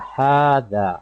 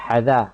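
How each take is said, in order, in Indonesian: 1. Vokal pertama ditahan dua harakat. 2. Vokal pertama dibaca pendek. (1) "kena baca uh, dua harakat lah" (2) "Jangan baca hadha"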